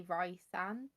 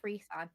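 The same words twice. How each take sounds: First: "Rysand" with first syllable like "rye"; others' pronunciation. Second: "Rysand" with first syllable like "ree"; own pronunciation. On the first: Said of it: "some people do say Rysand". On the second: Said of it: "I pronounce it as Rysand". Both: Shown as a demonstration.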